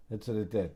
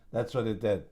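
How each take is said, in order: Both takes have the same delivery.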